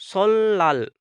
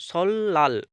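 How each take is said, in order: Both takes have the same delivery.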